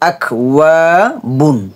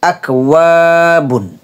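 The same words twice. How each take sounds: No difference in how they are said.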